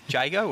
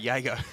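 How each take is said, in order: First: The name begins with a J sound. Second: The name begins with a Y sound.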